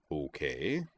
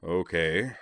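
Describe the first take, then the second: First: Soft, even acknowledgement; calm, quiet okay with rising end; equable. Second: Weary okay with a rising end; mildly fatigued acknowledgement; tired. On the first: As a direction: answer softly and evenly. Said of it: "still equable". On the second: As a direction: answer as if worn down. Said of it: "said Moose tiredly". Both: A narrator's reading.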